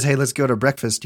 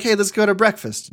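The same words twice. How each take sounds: First: Said in the usual way. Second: A pitched-up, casual invite from roommate Zach; upbeat invite. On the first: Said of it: "when somebody says". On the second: Retold or imitated. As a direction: sing out the invite a little higher. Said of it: "sometimes he's like".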